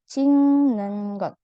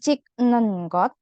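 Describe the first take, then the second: First: The first word ends in an ng sound. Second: The first word ends in a k sound. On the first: The speaker calls it right. "tapi cing nengot. Karena berubah jadi ieng" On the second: The speaker calls it wrong. "Berarti bukan cik nengot"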